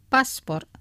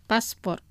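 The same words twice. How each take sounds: The two takes are said the same way.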